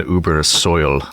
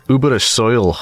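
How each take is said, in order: First: Said in the usual way. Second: Badly faked Scottish accent; terrible Scottish accent. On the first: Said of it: "Sounds like something Scottish". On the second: Player joking the soil sounds Scottish, terrible Scottish accent. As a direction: have a poor go at sounding Scottish. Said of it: "That was a terrible accent".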